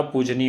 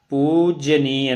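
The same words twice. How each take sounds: First: पूजनीय said compactly as poo-ja-nee, the middle vowel nearly swallowed; correct form shown. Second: पूजनीय spread out as pu-ja-ni-ya, every syllable sounded; पूजनीय drawn out into four syllables to show the mistake; wrong form shown. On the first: Teacher gives students the correct पूजनीय, said quickly as poo-ja-nee. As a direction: give पूजनीय short and tight as the right form. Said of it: "पूजनीय होता है". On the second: Teacher shows the wrong form of पूजनीय to students, pu-ja-ni-ya spelled out. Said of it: "पूजनीय नहीं होता". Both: Shown as a demonstration.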